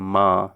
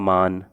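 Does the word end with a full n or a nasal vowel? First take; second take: nasal vowel; full n. First: The vowel is nasalized with no full n sound. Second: The word ends with a clearly pronounced n sound. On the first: The speaker calls it right. "नून गुन्ना को नाक से पढ़ते हैं" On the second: The speaker calls it wrong. "अगर नून को जाहिर करके पढ़ेंगे तो हो जाएगा मान"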